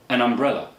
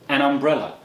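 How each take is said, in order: No difference in how they are said.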